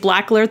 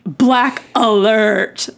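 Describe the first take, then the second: First: It is said in a plain, neutral tone. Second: It is said in a snide, sarcastic tone. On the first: "instead of saying" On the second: "sarcastic, bitchy version"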